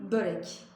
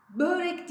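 First: "börek" with a rounded ö and tapped r; the right way, "börek"; correct pronunciation. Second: "Börek" said with a flattened ö; the common mistake on "Börek"; wrong pronunciation. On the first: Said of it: "değil, börek". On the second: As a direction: mispronounce "Börek" as heard around you. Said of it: "Börek değil". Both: Shown as a demonstration.

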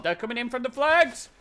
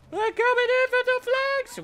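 First: Said in the usual way. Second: Very high, squeaky put-on voice; silly high voice. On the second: Player echoing his own warning about the flags, silly high voice. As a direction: repeat it in a mock falsetto.

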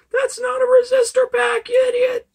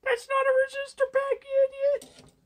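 First: Squeaky high, loud mock commenter. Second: Squeaky high mock commenter, normal volume. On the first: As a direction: shriek it like a snotty online troll. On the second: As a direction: needle yourself in a shrill troll voice. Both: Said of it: "Someone is probably typing in the comments".

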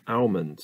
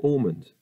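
First: Almond with a flat open "al" and sounded L; ahl-mond. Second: Almond with a rounded "aw" vowel; awl-mond. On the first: Trying both ways of saying almond, first "al". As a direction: say almond as AL-mund, the L pronounced. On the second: Trying both ways of saying almond, now "awl". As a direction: say almond as AWL-mund, a bit higher. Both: Shown as a demonstration. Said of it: "Are you an almond or an almond person?".

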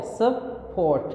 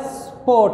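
First: स्पोर्ट said slowly as two parts, sup-port; split into syllables. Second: Said in the usual way. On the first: Shown as a demonstration. Teacher dividing a word for students, स्पोर्ट split as sup-port. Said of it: "syllables के दरमियान में करना है". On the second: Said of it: "जैसे word है हमारे पास".

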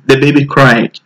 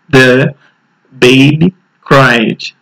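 First: Put-on The baby cried said at quicker natural speed; quick natural-pace repeat. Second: Put-on baby cried spoken very slowly, word by word; slow teacher model. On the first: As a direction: run The baby cried together fast. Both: Shown as a demonstration. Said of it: "Agora rápido".

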